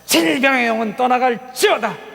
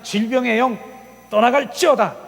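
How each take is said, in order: First: The syllable 질 is strongly accented. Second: The syllable 질 carries no special accent.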